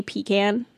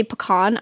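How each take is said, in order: First: Pecan said as PEE-can; her own pecan. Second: Pecan said as puh-KAHN; others' pecan. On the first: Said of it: "I say pecan". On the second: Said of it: "People say pecan. I say pecan". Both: Shown as a demonstration.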